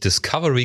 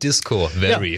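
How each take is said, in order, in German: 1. Der Teil 'Disco' wird nicht betont. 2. Der Teil 'Disco' wird stark betont. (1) "nicht Discovery genannt hat" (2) "sondern Discovery"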